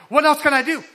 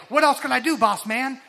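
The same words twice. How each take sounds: First: Higher and louder eager question; really keen to be told the next task; eager plea. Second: A hint of Robin asking Batman, a bit higher; eager helper asking the boss, lightly voiced; eager sidekick. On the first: Retold or imitated. Worker asking the boss for more, eager and loud. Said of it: "but, like". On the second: Worker eagerly asking the boss for more, Robin-like. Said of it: "that sounds like Robin, like, to Batman".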